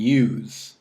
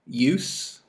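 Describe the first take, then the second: First: The word ends with a buzzing z sound. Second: The word ends with a hissing s sound. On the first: It is the verb. "Z with the verb" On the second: It is the noun. "S with the noun or adjective"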